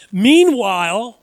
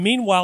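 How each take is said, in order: First: "Meanwhile" loud and stretched, swooping in pitch; drawn-out MEANWHILE. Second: Said in the usual way. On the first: Shown as a demonstration. Preacher flags Mark's term, "Meanwhile" loudly drawn out. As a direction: stretch out "Meanwhile" with big emphasis. Stresses Mark's chosen word.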